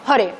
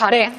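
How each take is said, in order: First: Hore with a rounded, closed first vowel; closed short A. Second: Hare with an open first A; wrong open A. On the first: Teacher contrasting the right hore. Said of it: "sino hore". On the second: Teacher contrasting the wrong hare. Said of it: "No es hare". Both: Shown as a demonstration.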